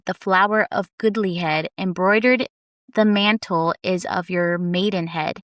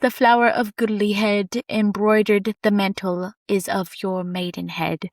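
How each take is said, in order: First: It is read in the speaker's usual accent. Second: It is read in a British accent.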